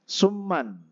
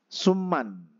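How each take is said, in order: No difference in how they are said.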